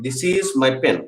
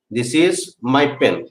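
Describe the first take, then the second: First: Said in the usual way. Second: Slow down so the class can write it; very slow dictation. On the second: Shown as a demonstration. Teacher dictating to students, very slowly. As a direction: space out "this is my pen." word by word. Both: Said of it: "teacher repeats sentence".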